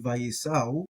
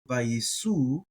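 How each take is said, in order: First: The word ends in an ow-like vowel pair. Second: The word ends in a plain oo vowel. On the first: "I do vayisau because I like to pronounce that aleph" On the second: "some might do vayisu"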